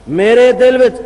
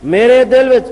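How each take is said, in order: Both takes have the same delivery.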